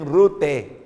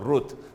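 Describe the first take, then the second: First: The name ends with an added vowel sound. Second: The name ends on a closed T consonant. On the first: The speaker calls it wrong. "Não tem Rute, essa mania de português... vogalizar tudo no final" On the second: The speaker calls it right. "se pronuncia o T no final"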